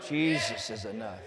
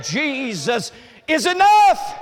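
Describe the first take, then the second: First: Softer and lower, almost to himself; soft echo. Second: Slow loud shout, much higher; shouted proclamation. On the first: Preacher to congregation, repeating the line softly. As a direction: let it fall quietly after the shout. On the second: Preacher to congregation, shouting the key line. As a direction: proclaim it at full voice. Shouted then repeated softly. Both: Acted.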